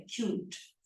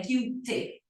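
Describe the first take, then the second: First: Said in the usual way. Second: Cute said as two syllables, "kyu-tee"; wrongly sounded E. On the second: Shown as a demonstration. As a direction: sound the silent final E in cute. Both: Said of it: "o E não é pronunciado".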